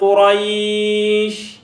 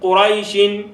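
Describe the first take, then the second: First: The word stops with a lengthened vowel. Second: The word runs on with a short vowel. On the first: "mba ŋŋenda yimirira" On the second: "nga ŋŋenda yunga"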